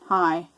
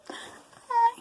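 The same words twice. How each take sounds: First: It is said with toned-down, moderate expression. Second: It is said with exaggerated, extreme expression.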